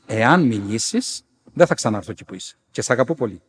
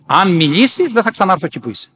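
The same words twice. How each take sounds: First: Gentle warning. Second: Raised, louder imitation of a warning; urgent warning. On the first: Retold or imitated. Saint warning the nun with love, gentle. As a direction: warn calmly and tenderly. Apparition repeats warning lovingly. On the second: Elder warning the nun to keep silent, urgent. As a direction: warn firmly, pitched up and forceful.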